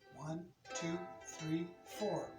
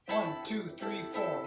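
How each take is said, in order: First: The numbers are counted slowly. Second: The numbers are counted quickly.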